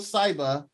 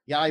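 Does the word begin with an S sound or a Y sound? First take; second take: S sound; Y sound. First: The word begins with an S sound. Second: The word begins with a Y sound. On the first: The speaker calls it wrong. "Saiba? It's a Y" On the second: The speaker calls it right. "with a Y"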